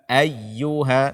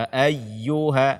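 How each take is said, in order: No difference in how they are said.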